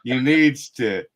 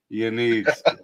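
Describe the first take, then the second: First: Said in the usual way. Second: Chuckling while saying it; laughing version of the same line. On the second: Shown as a demonstration. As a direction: repeat it through a laugh.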